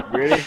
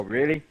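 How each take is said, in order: First: High, loud screamed question; re-enacted shriek of disbelief; incredulous scream. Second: Said in the usual way. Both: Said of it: "scream and go".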